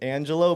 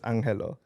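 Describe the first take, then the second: First: The name is said the English way. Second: The name is said the Filipino way.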